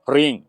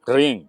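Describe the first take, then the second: No difference in how they are said.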